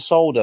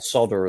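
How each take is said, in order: First: The word is said in a non-American way. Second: The word is said in an American way.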